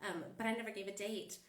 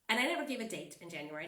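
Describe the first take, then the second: First: Said in the usual way. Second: Never punched louder and faster; stress on never. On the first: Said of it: "same claim repeated calmly". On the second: Real, not acted. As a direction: hit the word never hard. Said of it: "repeats the point with emphasis".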